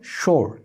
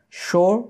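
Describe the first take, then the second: First: "শোর" as shor with falling tune; American pronunciation. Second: "শোর" as shaw, R dropped, higher pitch; British pronunciation. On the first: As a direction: sound the English R in "শোর". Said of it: "হবে হলো". ("শোর" শেষে র সহ, নামা সুরে) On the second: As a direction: raise "শোর" and leave the R silent. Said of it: "British উচ্চারণ করলে". ("শোর" উঁচু সুরে, র ছাড়া) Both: Shown as a demonstration.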